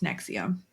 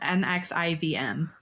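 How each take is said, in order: First: The letters are said together as one word. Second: Each letter is said separately, one by one. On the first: "pronounced N X I V M" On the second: "Spelled N X I V M"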